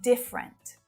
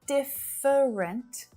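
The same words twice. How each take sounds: First: The word is said with two syllables. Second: The word is said with three syllables. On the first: The speaker calls it right. "just two syllables" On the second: The speaker calls it wrong. "Not different"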